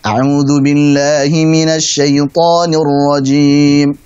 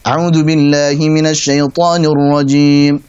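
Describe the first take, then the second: First: The recitation is at a moderate, medium pace. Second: The recitation is fast, with short vowels. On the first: "Pada yang sedang" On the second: "Ada yang lebih cepat lagi hadar"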